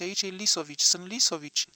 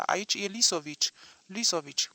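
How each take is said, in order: First: Loud, pleading "Lisovici" cried out; frantic neighbour crying out his name; panicked cry. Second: "Lisovici" sinking to a whisper; frightened plea trailing off; fading panic. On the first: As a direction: shout "aici e Lisovici" in terror. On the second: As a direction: let "Lisovici" die into a breathless whisper. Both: A narrator's reading. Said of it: "țipă silueta".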